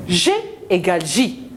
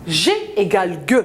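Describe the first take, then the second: First: G pronounced soft, as French J. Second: Final G pronounced "gueu", a hard stop. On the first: Teacher shows children G's two sounds, soft G. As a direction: say the second letter "J" as "ji", with a zh sound. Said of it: "Il me donne le son je". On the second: Teacher shows children G's two sounds, hard G. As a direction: say the first G as "jé", the last G as hard "gueu". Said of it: "Il me donne le son G". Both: Shown as a demonstration.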